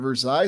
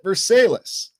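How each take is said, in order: First: The name is said the French way. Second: The name is said an Americanized local way. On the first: This is the original place the town is named after. "obviously named after Versailles" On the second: This is how local residents say the town's name. "on the ground you call it Versailles"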